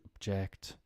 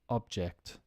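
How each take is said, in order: First: The stress is on the second syllable. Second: The stress is on the first syllable. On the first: It is used as a verb. "to object" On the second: It is used as a noun. "think of it now as nouns"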